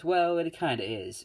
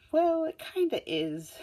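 First: Only a little higher, a blunt tactless jab; lightly voiced blunt Bakugo, close to the speaker's own voice; Bakugo's blunt line. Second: Very high, slow, put-on girl voice; Uraraka's blunt line. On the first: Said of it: "Bakugo is the one who goes". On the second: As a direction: squeak it out slowly in a cartoonish girl voice. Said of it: "Uraraka's like".

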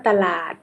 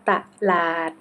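First: Said in the usual way. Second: ตะลาด split as ตะ-ลาด; syllable-by-syllable reading. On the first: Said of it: "คำว่าตลาด". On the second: Shown as a demonstration. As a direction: sound out ตะลาด as two separate syllables. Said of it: "อ่านว่าตะลาด".

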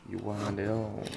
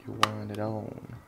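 Both takes have the same delivery.

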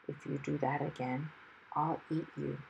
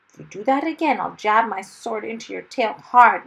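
First: Low, hushed threat; fierce whisper. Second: Loud, raised, fierce threat. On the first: Dragon into hero's ear after being pricked, fierce whisper. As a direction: threaten softly, close to the ear. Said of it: "he whispered fiercely". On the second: Hero to dragon after being knocked flat, fierce. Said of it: "Mister Wumble said fiercely". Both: A narrator's reading.

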